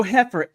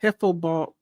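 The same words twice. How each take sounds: First: "heifer" said fully, hef-er, with a clear r; slow, spelled-out "heifer" with the r sounded; careful heifer. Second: "Heifer" said like heffa, no final r, dropped into "Heifer ball"; "Heifer" run together as hefful; dialect heifer. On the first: Correcting herself, she says "heifer" clearly. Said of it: "H E I F E R". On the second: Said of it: "No, no, heifer". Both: Shown as a demonstration.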